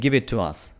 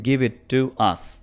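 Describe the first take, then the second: First: The phrase runs together without any break. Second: There is a break inside the phrase. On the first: The speaker calls it right. "हम कहेंगे" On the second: The speaker calls it wrong. "हम ऐसा नहीं कहते"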